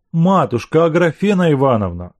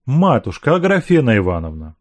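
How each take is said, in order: First: Pleading. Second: Said in the usual way. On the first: A narrator's reading. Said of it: "начал он умоляющим голосом". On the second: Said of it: "повторил он".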